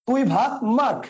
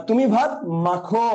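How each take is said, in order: First: মাখ ends on bare kh; contrast demo. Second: Slow, মাখো with open final o; contrast demo. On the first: Teacher contrasts মাখ with no final vowel. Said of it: "খ এর হসন্ত রূপ". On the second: Teacher contrasts slow মাখো with final o. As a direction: draw out মাখো with its vowel. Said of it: "খ এর সাথে অ". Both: Shown as a demonstration.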